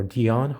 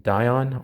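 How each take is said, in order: First: Dion said as DEE-on; long E in Dion, DEE-on; alternative pronunciation. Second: Dion said as DIE-on; long I in Dion, DIE-on; alternative pronunciation. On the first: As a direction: say Dion with a first syllable like "dee". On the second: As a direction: say Dion with a first syllable like "die". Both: Shown as a demonstration. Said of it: "however you pronounce that".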